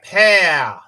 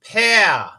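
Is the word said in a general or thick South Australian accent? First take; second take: South Australian; South Australian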